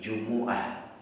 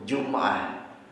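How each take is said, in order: First: The m is followed by a u vowel. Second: The m is followed by no vowel. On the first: This is the Hijaz dialect form. "dibaca dhammah mimnya" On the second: This is the Akil dialect form. "dibaca sukun"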